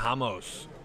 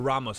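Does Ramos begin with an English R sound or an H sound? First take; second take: H sound; English R. First: The first sound is like an H. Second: The first sound is an English R. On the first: The speaker calls it wrong. "We have no H Rs today" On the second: The speaker calls it right. "as I've been told. Apparently, we are pronouncing the R's tonight"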